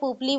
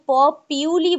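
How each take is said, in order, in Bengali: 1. এটা 'pup-lee' এর মতো শোনাচ্ছে, দুটি শব্দাংশ সহ। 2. এটা 'po-pyoo-lee' এর মতো শোনাচ্ছে, 'pyoo' ধ্বনি সহ। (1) "যেমন আমি আগে পুপলি বলতাম" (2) "কেউ প পিউলি বলে"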